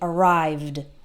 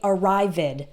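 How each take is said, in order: First: The ending is a d with no added syllable. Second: The ending is said as an extra syllable. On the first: The speaker calls it right. "the ed sounds like d" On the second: The speaker calls it wrong. "we don't add an extra syllable, so don't say arrived"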